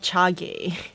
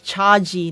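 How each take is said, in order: First: The name ends with a 'gay' sound. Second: The name ends with a 'jee' sound. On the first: The speaker calls it wrong. "not Chage" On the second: The speaker calls it right. "is actually pronounced as Chaji"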